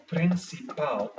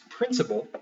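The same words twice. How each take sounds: First: PRINCIPAL slowly in Portuguese, stress on the final PAL; last-syllable stress. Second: Said in the usual way. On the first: Shown as a demonstration. Teacher giving the Portuguese word, slow with last-syllable stress. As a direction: say "principal" as prin-ci-PAL, drawn out. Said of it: "the last syllable gets the stress". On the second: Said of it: "for instance, in Portuguese".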